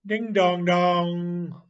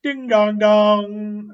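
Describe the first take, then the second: First: Slow, higher ding-dong like a bell; bell sound. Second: Slow, much higher and louder ding-dong; shouted bell call. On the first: Boy playing riverboat to himself, imitating a bell. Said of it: "Then he would say ... like a bell". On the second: Boy playing riverboat, shouting the bell call. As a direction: belt it out like a big bell. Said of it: "Then he would shout again and say". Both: Acted.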